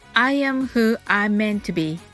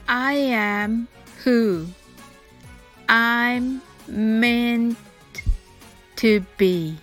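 First: The sentence is spoken quickly at natural speed. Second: The sentence is spoken slowly and carefully. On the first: "次にナチュラルスピードで言ってみましょう。" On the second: "はじめはゆっくりです。"

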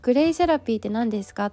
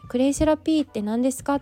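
First: The pitch pattern of the phrase sounds natural. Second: The pitch pattern of the phrase sounds odd. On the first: The speaker calls it right. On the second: The speaker calls it wrong.

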